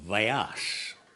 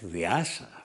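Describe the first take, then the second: First: The name ends on the consonant sound. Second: The name ends with an added vowel sound. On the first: The speaker calls it right. "His name is Vyas" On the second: The speaker calls it wrong. "It's not Vyasa"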